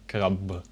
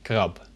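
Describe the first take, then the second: First: The final consonant sounds like a b. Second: The final consonant sounds like a p. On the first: The speaker calls it wrong. "instead of a krab" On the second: The speaker calls it right. "the B at the end of the word is more pronounced like a P"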